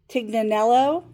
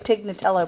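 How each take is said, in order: First: The name ends with an n sound: 'nello'. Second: The name ends with a t sound: 'tello'. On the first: The speaker calls it right. "I think is how you say it" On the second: The speaker calls it wrong. "I keep wanting to say Tignatello, but I know that's not right"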